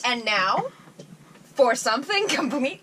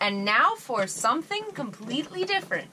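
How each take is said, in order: First: There is a pause after the word now. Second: It flows without a pause after now. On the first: The speaker calls it wrong. "You're like" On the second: The speaker calls it right.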